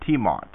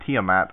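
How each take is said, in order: First: Tiamat said in two syllables, TEE-mot; uncertain pronunciation. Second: Tiamat said in three syllables, TEE-uh-mat; alternative pronunciation. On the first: Co-host trying a listener's word, unsure, Tiamat as TEE-mot. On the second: Co-host offering a second guess, Tiamat as TEE-uh-mat. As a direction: end Tiamat on a short A as in cat, TEE-uh-mat. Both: Shown as a demonstration. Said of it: "I don't know how to pronounce that".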